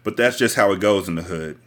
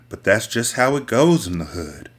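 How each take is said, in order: First: It is read in the speaker's ordinary voice. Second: It is read in a put-on voice.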